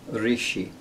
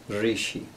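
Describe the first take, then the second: The two takes are said the same way.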